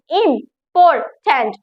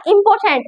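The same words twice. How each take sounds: First: "इंपॉर्टेंट" split slowly into im-por-tant; syllable by syllable. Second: Said in the usual way. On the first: Shown as a demonstration. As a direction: sound out "इंपॉर्टेंट" in three separate beats. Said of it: "बोलने में थोड़ा सा time लगे". ("इंपॉर्टेंट" को धीरे-धीरे तीन टुकड़ों में) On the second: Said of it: "इसमें तीन सिलेबल हुए".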